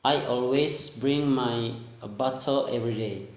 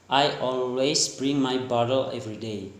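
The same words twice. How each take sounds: First: Lightly attempted British accent; British-style bottle with a crisp T. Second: Lightly attempted American accent; American-style bottle with a softened T. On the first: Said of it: "That for the British action". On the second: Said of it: "and the American". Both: Shown as a demonstration.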